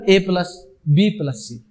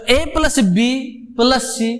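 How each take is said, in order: First: "A plus", pause, then lower "B plus C"; pause for bracket. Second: Slow "A plus B", pause, then "plus C"; group "A plus B", break, add "plus C"; pause for bracket. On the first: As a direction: break after "A plus", keep "B plus C" together. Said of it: "मैं पास कहां दे रहा हूं". ("A plus" पर रुककर "B plus C" एक साथ) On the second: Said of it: "थोड़ा सा पास लेके". ("A plus B" के बाद रुककर "plus C") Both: Shown as a demonstration.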